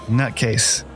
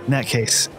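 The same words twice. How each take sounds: No difference in how they are said.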